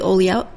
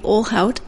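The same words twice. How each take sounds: First: The 'lh' is said like a 'ly' sound. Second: The 'lh' is said as 'l' then 'h'. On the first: The speaker calls it wrong. "Nope, see, I did it" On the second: The speaker calls it right. "you know how to pronounce it"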